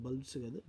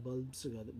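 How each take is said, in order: No difference in how they are said.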